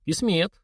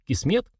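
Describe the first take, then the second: First: "Кисмет" as a drawn-out answer with a mild sigh; understated sighing acceptance; resigned sigh. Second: КИСМЕТ raised high with a questioning rise; "Кисмет?" pitched up, seeking agreement. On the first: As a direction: let "Кисмет" out slowly, conceding. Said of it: "вздохнул говоривший". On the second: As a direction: put "Кисмет" as a question, voice lifting. Asks the elder to confirm fate. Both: A narrator's reading.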